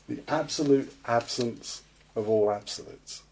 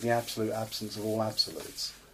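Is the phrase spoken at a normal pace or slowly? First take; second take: slowly; normal. First: The phrase is spoken slowly and deliberately. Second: The phrase is spoken at a normal pace.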